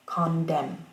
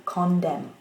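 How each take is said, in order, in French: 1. La première syllabe porte un accent secondaire. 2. La première syllabe porte un accent secondaire.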